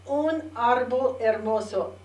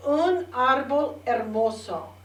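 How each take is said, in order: Both takes have the same delivery.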